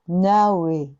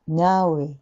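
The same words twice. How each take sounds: The two takes are said the same way.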